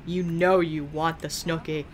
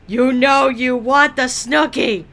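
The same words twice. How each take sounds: First: Said in the usual way. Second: Loud mock seductive. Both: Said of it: "Whispers seductively".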